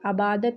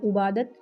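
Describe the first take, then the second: First: The word begins with a long 'a' vowel. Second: The word begins with a 'u' vowel. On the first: "आबादत या उबादत नहीं पढ़ेंगे" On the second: "आबादत या उबादत नहीं पढ़ेंगे"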